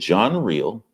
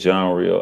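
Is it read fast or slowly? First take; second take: slowly; fast. First: It is read slowly. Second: It is read at normal speed.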